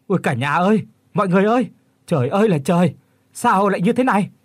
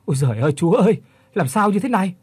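First: High, loud panicked wail to the household; terrified outcry. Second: High, loud frightened cry, voice catching; choked terrified plea. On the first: Old man finds horror at the door, terrified high loud cry. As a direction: cry out in sheer terror, voice cracking high. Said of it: "tiếng của lão Kiên kêu lên thất thanh". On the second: Old man tells Định of the ghosts, choked frightened cry. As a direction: plead in panic, choking up. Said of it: "Lão Kiên vừa nói vừa nghẹn". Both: Acted.

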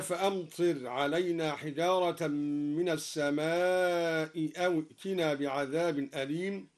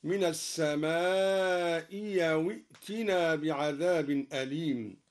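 First: Said in the usual way. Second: السماء أو ائتنا said as-samāʼi yaw-tinā, the second hamza turned to ي. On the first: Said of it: "بإبدال الهمزة الثانية ياء". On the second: Shown as a demonstration. Reciter gives the Durī ي in place of the hamza in السماء أو. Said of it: "هكذا".

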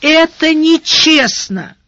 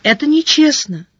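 First: По-детски обиженно, медленно и выше; протянуть с ребячьей обидой на несправедливость; детская обида. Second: Сдержанное возмущение повыше, без настоящего шёпота; лёгкая ярость вполголоса; яростный шёпот. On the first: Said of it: "выдохнула с детской обидой". (с детской обидой, протяжно) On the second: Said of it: "яростно прошептала она". (приглушённо-яростно, с обидой) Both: A narrator's reading.

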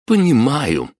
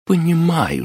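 First: Said in the usual way. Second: Hammed-up higher menacing «Понимаю» with a sharp fall; gritted through teeth. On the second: Mother grabbing grandpa's collar, lightly acted gritted menace. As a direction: grind out «Понимаю» as a warning. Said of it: "взяла за шиворот и процедила".

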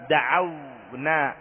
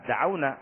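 First: Drawn-out example word. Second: Said in the usual way. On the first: Shown as a demonstration. Teacher reading an example verb to students, very slowly drawn out. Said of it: "teacher reads example verb". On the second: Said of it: "teacher repeats example verb".

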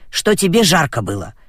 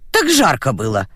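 First: Said in the usual way. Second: Calm. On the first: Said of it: "сказала баба Дуся Пете". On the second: Acted. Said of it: "спокойно ответила".

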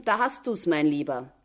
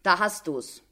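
First: Mildly gleeful jibe, dropping at the end; gloating. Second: Understated satisfaction, falling close; satisfied. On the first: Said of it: "rief sie ihm schadenfroh zu". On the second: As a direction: say it with contentment, settled. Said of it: "nochmals mit Befriedigung". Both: A narrator's reading.

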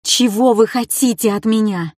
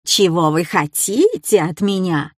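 First: Said in the usual way. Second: Sneering echo of her plea; a lightly voiced taunting copy; mocking mimic. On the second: A narrator's reading. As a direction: throw her words back with scorn. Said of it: "передразнил Кай".

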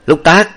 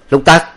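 First: Sharp loud call, pitched up; calling again. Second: Sharp loud call, pitched up. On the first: Master calls his silent servant again, loud and sharp. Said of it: "Kế nghe Hoàng Ngọc Ẩn tiếp nữa". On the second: Master calls his servant sharply, loud and raised. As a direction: summon the servant loudly. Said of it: "bèn dây qua kêu Lục Tặc". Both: A narrator's reading.

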